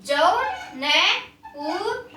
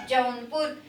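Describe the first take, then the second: First: Jaunpur stretched very slowly with a slight laugh; slow sounding out. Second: Said in the usual way. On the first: Shown as a demonstration. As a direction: draw out Jaunpur for the class. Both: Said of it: "आप भी बेटा साथ साथ बोलेंगे".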